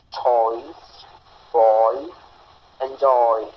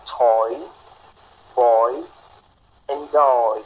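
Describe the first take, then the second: First: Put-on "Toys", "boy", "enjoy" repeated, the oi glide held; model pronunciation repeated. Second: Put-on "toys", "boy", "enjoy" each with a clear oi diphthong; model pronunciation. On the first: Teacher repeating the oi words for students. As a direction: repeat each word for the students to copy. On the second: Teacher modelling the oi sound for the class. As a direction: model each word slowly, stressing the glide. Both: Shown as a demonstration. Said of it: "Oi, as in".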